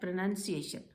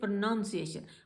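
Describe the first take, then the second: First: The second syllable sounds like 'nun'. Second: The second syllable sounds like 'noun'. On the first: The speaker calls it right. "वो word है प्रोनाउंसिएशन" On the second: The speaker calls it wrong. "लोग बोलते हैं प्रोनाउंसिएशन"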